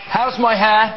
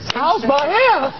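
First: The question is asked in a fairly plain tone. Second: The question is asked with anxious, pleading desperation.

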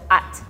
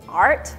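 First: The R sound is dropped. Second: The R sound is pronounced. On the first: "we go like at" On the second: "we don't go art"

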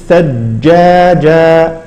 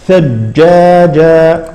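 Both takes have the same delivery.

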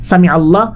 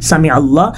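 Both takes have the same delivery.

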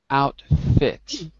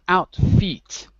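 First: The second syllable has a short 'i' vowel, like 'fit'. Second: The second syllable has a long 'ee' vowel, like 'feet'. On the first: The speaker calls it right. "Not feet. Fit" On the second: The speaker calls it wrong. "Not outfit"

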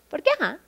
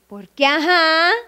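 First: It is said in a dismissive, cheeky tone. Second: It is said in a knowing, meaningful tone. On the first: It is none of your business. "Es más em, eh, pícaro, o bueno... como, no te importa" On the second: You already know the reason. "tu mejor amiga sabía que era que ahí estaba tu exnovio"

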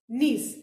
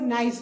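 First: The vowel is a long ee sound. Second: The vowel sounds like the word nice. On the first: The speaker calls it right. "N-I-E-C-E is niece" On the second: The speaker calls it wrong. "Aap log niece ko nice bolte"

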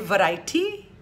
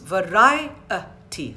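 First: A vowel is dropped, giving fewer syllables. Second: Every vowel is pronounced, giving four syllables. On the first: The speaker calls it wrong. "I'm not being articulate" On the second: The speaker calls it right. "sorry, four syllables"

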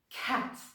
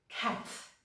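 The two takes are said the same way.

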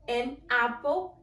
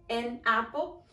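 No difference in how they are said.

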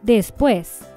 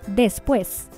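First: The s sounds like a th sound. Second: The s is a hissing Spanish s. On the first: "con ceseo" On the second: "Sin ceseo en España"

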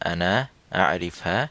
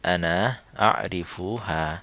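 First: It is said in reduced Saudi dialect form. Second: It is said in full Standard Arabic form. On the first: "Saudi উচ্চারণে" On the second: "standard অ্যারাবিকে হবে"

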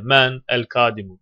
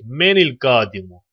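First: The n joins the next word with an a vowel. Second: The n joins the next word with an i vowel. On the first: The speaker calls it wrong. "Ne öyle? ... Böyle bir şey yok ki" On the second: The speaker calls it right. "Ondan dolayı böyle oluyor"

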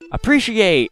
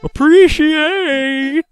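First: It is said in the speaker's normal voice. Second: It is said in a put-on character voice.

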